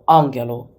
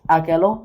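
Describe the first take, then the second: First: The middle consonant is a nasal ng sound. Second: The middle consonant is a plain g sound. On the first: The speaker calls it right. "you don't pronounce it as g, but as nuk" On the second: The speaker calls it wrong. "You might pronounce it as agelo? No"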